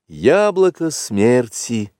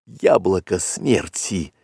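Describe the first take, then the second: First: Slow, higher-pitched pronouncement; name it slowly, lifting the pitch; slow naming. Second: Drawn-out words, as if choking; coughing. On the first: Panther explains the poison's name. (медленно, повыше, поясняя название) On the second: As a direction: say it slowly through a mild cough. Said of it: "закашлялся он". (с кашлем, медленно) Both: A narrator's reading.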